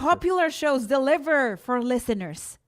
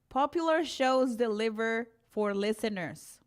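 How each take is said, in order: First: It is read passionately, sounding somewhat angry. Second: It is read in a plain, neutral way.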